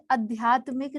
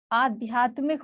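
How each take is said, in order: First: आध्यात्मिक with a short opening "a"; wrong pronunciation. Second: आध्यात्मिक with a long opening आ; correct pronunciation. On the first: Teacher showing the error, आध्यात्मिक with short first vowel. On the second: Teacher giving the right word, आध्यात्मिक with long first vowel. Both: Shown as a demonstration. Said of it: "आध्यात्मिक नहीं होता".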